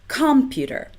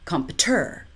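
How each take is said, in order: First: The stress is on the first syllable, com. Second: The stress is on the third syllable, ter. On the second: "or three"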